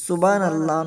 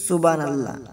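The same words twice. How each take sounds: First: The word is pronounced carelessly, with sounds blurred. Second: The same.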